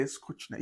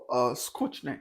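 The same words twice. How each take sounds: First: Skучny whispered, as skoochny, no voice; whispered Russian word. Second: Skучny said softly the Russian way, as skoochny; Russian word skучny. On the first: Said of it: "They say". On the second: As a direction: drop low and quiet on the Russian word skучny. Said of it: "they say". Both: Retold or imitated.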